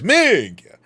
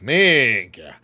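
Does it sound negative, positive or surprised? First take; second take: surprised; negative. First: It is said in a surprised tone. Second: It is said in a negative tone.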